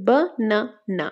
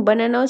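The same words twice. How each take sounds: First: বানানা in three separate beats, বা-না-না; split into syllables. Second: Said in the usual way. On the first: Shown as a demonstration. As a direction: pause between the syllables of বানানা. (বানানা তিন ভাগে থেমে থেমে, বা-না-না) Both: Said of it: "তিনটা পার্টে হলে ট্রাইসিলেবল".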